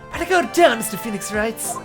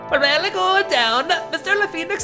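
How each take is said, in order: First: It is spoken in a plain American accent. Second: It is spoken with a put-on German accent. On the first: "My boring old American accent" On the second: "Is that a better German accent?"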